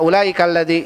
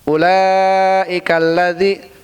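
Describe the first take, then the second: First: The vowel is cut short. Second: The vowel is drawn out long. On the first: The speaker calls it wrong. "enggak pendek" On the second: The speaker calls it right. "dia baca panjang"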